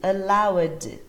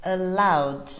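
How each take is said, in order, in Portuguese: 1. Termina só com o som de D. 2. Termina só com o som de D.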